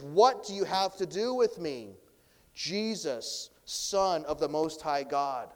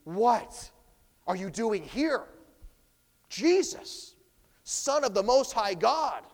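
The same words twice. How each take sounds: First: Said in the usual way. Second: High, loud, startled cry of a cornered demon; a scared demon recognizing its master; frightened demon. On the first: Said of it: "from this first tone". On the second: Shown as a demonstration. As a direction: shriek the name Jesus in sudden fear. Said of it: "It also could be".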